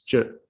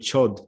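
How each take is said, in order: First: It ends without a 'd' sound. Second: It ends with a clear 'd' sound. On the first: The speaker calls it right. "in Tibetan you actually pronounce it as jerk" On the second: The speaker calls it wrong. "Some people call it chod because that's a transliteration"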